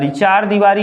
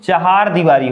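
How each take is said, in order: First: The first word is said as two-syllable 'chaar'. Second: The first word is said as three-syllable 'chahaar'. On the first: The speaker calls it wrong. "न होकर के" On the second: The speaker calls it right. "बल्कि चहार दीवारी होता है"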